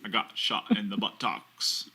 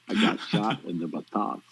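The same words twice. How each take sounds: First: Forrest Gump impression. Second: Slow, drawn-out American Southern drawl; a better take on the Forrest Gump quote, in a slow Southern drawl; Forrest Gump impression. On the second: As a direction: copy Forrest Gump slowly and earnestly. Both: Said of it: "You actually do that much better".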